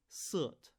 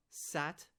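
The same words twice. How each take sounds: First: "sut" with the A turned into an "er"-like vowel; shifted A vowel. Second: Said in the usual way. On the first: Shown as a demonstration. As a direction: say "sut", sat with a duller central vowel. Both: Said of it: "And then a and er".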